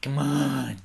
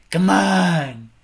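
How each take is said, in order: First: Said in the usual way. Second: Loud urging. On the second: Real, not acted. Urging the game on, louder.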